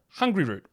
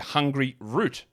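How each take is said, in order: First: It is said run together as one word. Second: It is said as two separate words. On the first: The speaker calls it right. "Just call it one word" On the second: The speaker calls it wrong. "make sure I don't say Hungry Root"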